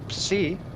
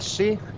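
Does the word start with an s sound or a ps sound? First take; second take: ps sound; s sound. First: The word begins with a p-s sound. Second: The word begins with a plain s sound. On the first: The speaker calls it right. "it's psi" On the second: The speaker calls it wrong. "it's not si"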